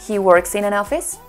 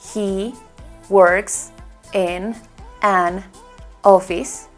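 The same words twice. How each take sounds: First: The words run together without breaks between them. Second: Each word is said separately with small breaks. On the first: The speaker calls it right. "sino digo" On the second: The speaker calls it wrong. "no suena"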